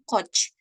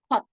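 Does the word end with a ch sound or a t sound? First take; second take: ch sound; t sound. First: The word ends with a ch sound. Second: The word ends with a t sound. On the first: The speaker calls it wrong. "Bukan coach" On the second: The speaker calls it right. "Ini bunyinya kot"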